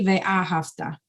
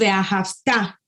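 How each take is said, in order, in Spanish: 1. El acento cae antes de la última sílaba. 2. El acento cae en la última sílaba. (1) "no es correcto decir" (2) "Lo decimos; ponerle el acento en la última sílaba"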